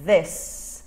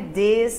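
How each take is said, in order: First: The th is voiced, tongue between the teeth. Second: The th is replaced by a different sound. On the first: The speaker calls it right. "é this" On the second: The speaker calls it wrong. "não é this"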